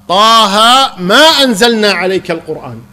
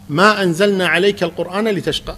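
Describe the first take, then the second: First: It stops right after 'the Quran'. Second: It runs on without stopping after 'the Quran'. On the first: The Quran was not revealed at all. The speaker calls it wrong. "ووقف" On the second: The Quran was not revealed to cause hardship. The speaker calls it right. "آية واضحة"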